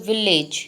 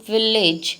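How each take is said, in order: The two takes are said the same way.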